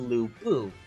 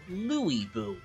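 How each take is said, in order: First: The first part of the name is one syllable. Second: The first part of the name is two syllables. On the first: This is the older, familiar way of saying the name. The speaker calls it right. "The word pursue and the name Lu Bu are both two syllables in length" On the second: This is how the new game says the name. The speaker calls it wrong. "He is now Louis Bu"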